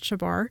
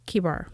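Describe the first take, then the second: First: The name begins with an SH sound. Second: The name begins with a K sound. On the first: The speaker calls it wrong. "I always pronounced it Shabar" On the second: The speaker calls it right. "I hesitated on the word Kibar"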